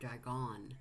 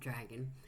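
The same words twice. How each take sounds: First: The stress is on the last syllable. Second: The stress is on the first syllable. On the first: "emphasis on the last word" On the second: "not dragon"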